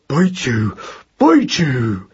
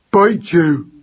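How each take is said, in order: First: Put-on squeezed, muttered baby mouse threat; small strangled voice. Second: Put-on high, loud baby mouse war cry; yelling. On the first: Trampled baby mouse still threatens, small and strangled. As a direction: mutter defiance through a strangled throat. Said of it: "in a small, strangled voice". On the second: Baby mouse threatens the cat, yelling. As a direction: yell a fierce little threat. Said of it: "yelled Magnus at the top of his voice". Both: A narrator's reading.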